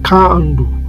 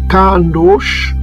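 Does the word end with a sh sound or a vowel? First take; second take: vowel; sh sound. First: The word ends on the vowel, no consonant. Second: The word ends with a final sh sound. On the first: The speaker calls it right. "On va dire" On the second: The speaker calls it wrong. "on ne va pas dire"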